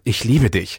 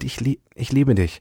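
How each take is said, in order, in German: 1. Es wird in einem gereizten, genervten Ton gesagt. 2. Es wird in einem warmen, aufrichtigen Ton gesagt. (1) "zu meiner Schwester sage und mich über sie ärgere" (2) "wie man es meint"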